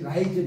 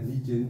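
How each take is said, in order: First: The first vowel sounds like 'eye'. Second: The first vowel sounds like 'ee'. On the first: The speaker calls it wrong. "이게 라이즌 이렇게 읽었어. 이게 한참 버는 거죠" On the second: The speaker calls it right. "이걸 만약 리즌이라고 읽어야 돼"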